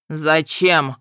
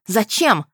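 First: A menacing one-word demand from the captor; short menacing growl. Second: Woman demanding an answer from the healer; angry demand. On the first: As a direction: kidnapper growling a threat at her. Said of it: "коротко и грозно рыкнул". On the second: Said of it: "рявкнула я на этого недоделанного хирурга". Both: A narrator's reading.

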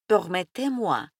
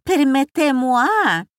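First: Said in the usual way. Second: Permettez-moi in a lightly voiced French accent; French phrase. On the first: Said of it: "разрешите мне". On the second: A narrator's reading. Hostess introducing the guest, touch of French accent.

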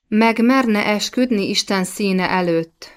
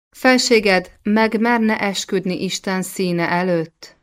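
First: Mildly insistent, resolute question; determined. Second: Said in the usual way. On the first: A narrator's reading. Queen repeating her challenge to the king, determined. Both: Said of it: "ismételte meg eltökélten Klemencia".

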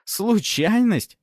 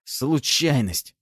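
First: Slow, much higher sneering repeat; wry mocking echo. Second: Slow, reluctant forced word; squeezed out. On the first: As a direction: throw the word back with a crooked smirk. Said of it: "Фёдор криво усмехнулся". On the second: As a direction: drag the word out unwillingly. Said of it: "выдавил из себя тот". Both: A narrator's reading.

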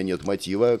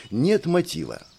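First: Said in the usual way. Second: НЕТ выделено заметно выше; подчеркни слово нет, как поговорку следователей; ударение на НЕТ. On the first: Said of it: "А если у меня". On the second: Retold or imitated. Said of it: "как говорят опытные следователи". (нажим на «нет» в «нет мотива»)

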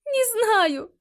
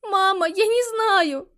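First: High, tearful repeat; crying. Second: High, slow, tearful; crying. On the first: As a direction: say it again through sobs. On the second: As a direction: answer through tears. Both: A narrator's reading. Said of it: "плача ответила Калиста".

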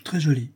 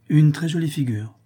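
First: Short, noncommittal echo; understated indifferent reply; feigned indifference. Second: Higher, lightly exclaimed praise; a touch of admiring excitement; admiring exclamation. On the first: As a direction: agree as if it hardly matters. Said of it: "j'affectais beaucoup d'indifférence". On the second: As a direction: praise it to get a reaction. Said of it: "s'écria la comtesse". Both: Acted.

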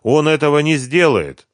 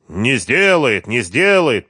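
First: Unsure, wavering reply; hesitant. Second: Slow, sneering «не сделает» repeated; mocking. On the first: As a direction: say «не сделает» without conviction. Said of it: "нерешительно сказала она". (нерешительно, неуверенно) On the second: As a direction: mimic her words to mock her. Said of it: "передразнил он её". (Харьков передразнивает Машу, издевательски растягивая) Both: A narrator's reading.

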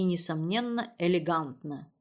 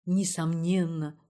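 First: Said in the usual way. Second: «Несомненно» drawn out slowly in mock solemnity; mocking imitation. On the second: A narrator's reading. Daughter mocking her mother's word «Несомненно», slow and mocking. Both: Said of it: "передразнила Ирина".

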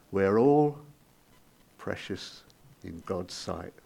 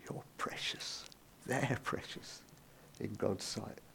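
First: Said in the usual way. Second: "precious" whispered, unvoiced and much softer. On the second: Shown as a demonstration. Preacher reassuring the congregation, soft whisper. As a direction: breathe "You're precious" as a hushed whisper. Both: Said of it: "Remember what I said?".

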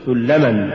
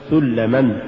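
First: Said in the usual way. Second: سلما broken into two parts; سلما with its second part accented apart; wrongly split word. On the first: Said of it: "قل". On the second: Shown as a demonstration. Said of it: "فصل الكلمة".

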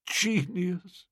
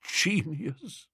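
First: Softly murmured, much quieter. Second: Softly murmured again, rising at the end. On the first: Old Bittlesham marvelling at the book, a soft murmur. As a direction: murmur it half to yourself in awe. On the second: Old Bittlesham repeating the praise, a soft rising murmur. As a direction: breathe it out in quiet awe. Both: A narrator's reading. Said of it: "murmured old Bittlesham".

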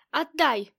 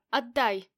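First: Shaking with anger. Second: Said in the usual way. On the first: A narrator's reading. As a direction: bark the order at the bodyguard. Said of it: "трясясь от гнева". (гневное требование) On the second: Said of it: "По-хорошему прошу".

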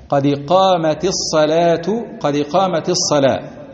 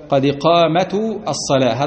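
First: قامت ending with kasra into الصلاة; correct iqama. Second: الصلاة with added ending aselaha; mock the wrong form; wrong pronunciation. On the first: Shown as a demonstration. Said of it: "كذلك هذه تقال هكذا". (نطق صحيح بكسر التاء) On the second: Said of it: "هذا خطأ من جهة اللغة ولحن". (نطق خاطئ ملحون)

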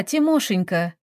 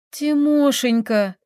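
First: Sweet, lightly sung-out endearment; tender singsong. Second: High, drawn-out entreaty; pleading. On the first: Taisia calls to her tractor-driver sweetheart, tender singsong. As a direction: coo the pet name affectionately. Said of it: "ласково пропела Таисия". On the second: Taisia begs the tractor driver to come out, pleading. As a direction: beg him, stretching out the pet name. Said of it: "взмолилась Таисия". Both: A narrator's reading.

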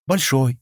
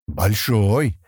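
First: Higher, falling echo of agreement; short mild assent; agreeing. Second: Drawn-out approval, rising at the end; understated pleased appraisal. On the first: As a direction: agree simply, pitch falling. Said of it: "согласилась Кэлла". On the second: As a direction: say it with satisfaction. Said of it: "довольным тоном проговорил он". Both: A narrator's reading.

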